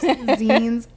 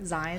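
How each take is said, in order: First: The vowel sounds like in 'magazine'. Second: The vowel does not sound like in 'magazine'. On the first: The speaker calls it right. "It's zines, like magazine" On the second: The speaker calls it wrong.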